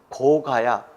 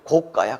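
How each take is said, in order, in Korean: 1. 둘째 음절은 평음으로 시작해요. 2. 둘째 음절은 경음으로 시작해요. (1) "그래야지" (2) "그럴 수는 없잖아요"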